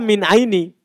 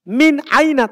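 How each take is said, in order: First: The last word ends with an 'i' vowel. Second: The last word ends with an 'a' vowel. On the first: The word changes its ending after the preposition. The speaker calls it wrong. "Tidak dibaca" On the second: The word keeps its fixed form. The speaker calls it right.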